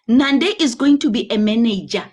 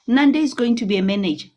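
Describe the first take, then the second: First: It is spoken slowly and deliberately. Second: It is spoken at a normal conversational pace.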